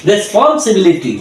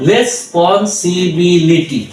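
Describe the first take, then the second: First: Said in the usual way. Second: responsibility stretched very slowly, each syllable separate. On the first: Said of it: "যদি আমরা একবারে বলি". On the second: Shown as a demonstration. Tutor to learners, slow broken-up responsibility. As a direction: drag out responsibility piece by piece. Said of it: "পুরাটা যদি আমরা উচ্চারণ করতে যাই".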